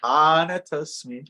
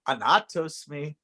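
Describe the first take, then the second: First: The second syllable is not stressed. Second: The second syllable is strongly stressed. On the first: The speaker calls it right. "But it's anatosmi" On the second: The speaker calls it wrong. "because we will want to say anatosmi"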